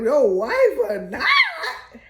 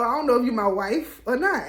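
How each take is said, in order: First: Slow, loud, higher disbelieving shout; incredulous. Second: Said in the usual way. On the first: Retold or imitated. Barbara echoing the coach's wife remark, slow loud disbelief. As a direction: drag it out in stunned disbelief. Incredulous echo of his words.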